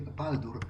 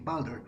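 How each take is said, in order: First: The name is said with Polish pronunciation. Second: The name is said with English pronunciation. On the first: "in accordance with a Polish pronunciation, you would just say Baldur as it's written" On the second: "In English, it would be Baldur"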